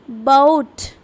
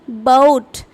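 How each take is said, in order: First: The vowel glides from one sound into another. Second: The same.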